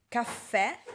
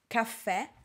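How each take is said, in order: Both takes have the same delivery.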